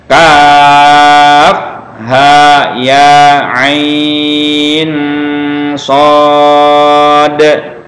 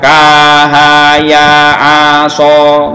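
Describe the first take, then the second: First: Each letter name is said separately and in full. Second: The letters are run together into short syllables. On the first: The speaker calls it right. "Jadi bacanya" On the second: The speaker calls it wrong. "Jangan lagi dibaca ... nggak boleh ya"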